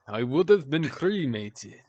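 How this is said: It is read in a put-on vampire voice.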